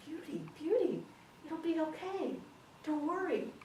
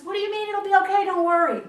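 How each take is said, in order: First: High-pitched, smoothly assured husband; confident reassurance. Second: Fast, high, furious shout; exasperated outburst. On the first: Husband soothing his sobbing wife, confidently reassuring. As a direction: reassure her in a lifted, unworried voice. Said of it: "he stood up really confident". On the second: Wife exploding at husband's reassurance, loud and exasperated. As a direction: throw his words back in a high yell. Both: Acted.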